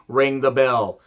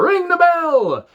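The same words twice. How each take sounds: First: Said in the usual way. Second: Put-on much higher, slow, drawn-out Dario Cueto accent. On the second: Dario Cueto ordering the bell rung, slow, high accented cry. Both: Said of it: "Can't do that accent at all".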